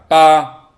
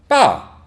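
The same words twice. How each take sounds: First: The pitch stays level and is held long. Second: The pitch drops sharply downward. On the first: It means eight. "소리를 옆으로 약간 길게 쭉 소리를 내면 됩니다" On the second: It means the top or chief. "내려 꽂듯이 말씀하시면 됩니다"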